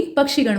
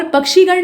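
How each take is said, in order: First: पक्षीगण with short i before gan; quick middle vowel in पक्षीगण. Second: पक्षीगण with long ee before gan; wrong long ee. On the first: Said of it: "बल्कि पक्षीगण होता है". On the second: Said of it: "पक्षीगण नहीं होता है". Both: Shown as a demonstration.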